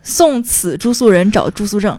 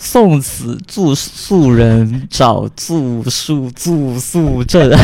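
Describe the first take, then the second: First: 住宿证 with clear retroflex zh sh; retroflex demo. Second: 住宿 said very slowly, flat s for sh; 送此住宿人 dragged out, retroflexes flattened; slow struggling attempt. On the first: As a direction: model 找住宿证 with curled-tongue zh. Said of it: "送此住宿人住". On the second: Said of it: "这太难了吧". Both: Shown as a demonstration.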